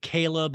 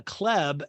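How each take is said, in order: First: "Caleb" in two syllables, KAY-leb. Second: "Kleb" as one syllable, a hard K straight into leb; spelled-out Kleb. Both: Shown as a demonstration. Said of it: "but it's spelled C H L E B".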